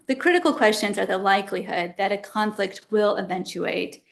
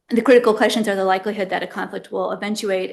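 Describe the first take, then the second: First: It is read slowly. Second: It is read fast.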